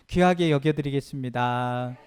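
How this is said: It sounds warm and heartfelt.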